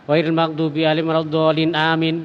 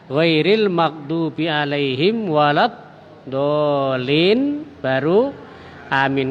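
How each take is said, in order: First: Amin follows straight on with no pause. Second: There is a short pause before amin. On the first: Amin seems to be part of the recited chapter. The speaker calls it wrong. "seakan-akan itu apa? Bagian dari Al-Fatihah" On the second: Amin is kept apart from the recited chapter. The speaker calls it right. "Tapi berhenti sebentar"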